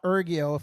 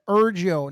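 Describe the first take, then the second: First: The g sounds hard, as in go. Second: The g sounds soft, as in geography. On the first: The speaker calls it wrong. "not Ergio" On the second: The speaker calls it right. "That said Ergio"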